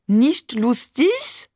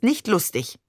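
First: High, slow mock French accent, rising question; teasing, drawn-out French-accented echo; exaggerated French accent. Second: Said in the usual way. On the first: A narrator's reading. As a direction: mimic someone with an overdone French accent. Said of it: "ahmte Barbe übertrieben Mamans französischen Akzent nach". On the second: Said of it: "ahmte Barbe übertrieben Mamans".

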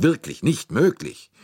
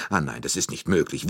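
First: "wirklich nicht möglich" thrown out higher and louder; emphatic disbelief. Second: Said in the usual way. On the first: A narrator's reading. Director protests to detective, "wirklich nicht möglich" high and emphatic. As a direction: insist on "wirklich nicht möglich" with raised, punched words. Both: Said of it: "stieß Monsieur Bouc hervor".

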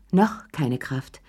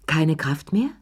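First: Slow "noch", stressed, then falling away; corrective stress. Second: "Keine Kraft mehr" rising sharply on "mehr"; incredulous question. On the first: Man correcting himself about his strength, slow stress on "noch". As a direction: lean on "noch", drop lower after it. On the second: Man challenging his own weakness, questioning lift on "mehr". Questions himself, then corrects it. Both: A narrator's reading.

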